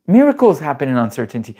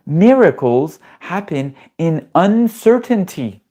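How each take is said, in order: First: Said in the usual way. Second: Miracles happen in uncertainty, said slowly with Miracles lifted high; drawn out, each word weighted like a revelation; a slow, high, emphatic preacher line; slow emphatic proclamation. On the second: Shown as a demonstration.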